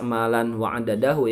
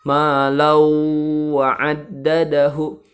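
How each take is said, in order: First: A clear n sound comes before the w. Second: The n merges into a held nasal w. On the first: The speaker calls it wrong. "Awas jangan dibaca" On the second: The speaker calls it right. "tapi harus dibaca"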